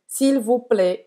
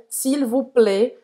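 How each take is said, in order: First: S'il vous plaît with plaît ending on an open e; open e variant. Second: S'il vous plaît slowly, plaît with a closed e; closed e variant. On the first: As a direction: let plaît open wide like an è. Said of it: "E aqui o A I você pode dizer". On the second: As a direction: say plaît with a tight closed e, not open. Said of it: "um E mais fechado". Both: Shown as a demonstration.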